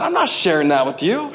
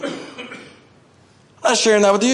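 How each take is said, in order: First: Said in the usual way. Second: God's amused refusal. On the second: Acted. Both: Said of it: "God said".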